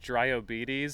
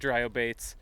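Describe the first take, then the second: First: The ending sounds like the word 'diabetes'. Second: The ending does not sound like 'diabetes'.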